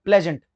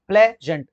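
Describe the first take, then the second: First: Said in the usual way. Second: pleasant split as play, then gent; broken into syllables. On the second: Shown as a demonstration. Teacher showing students how to break it, pleasant said syllable by syllable. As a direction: say pleasant in two separate beats. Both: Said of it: "देखो इसको भी आप break करोगे".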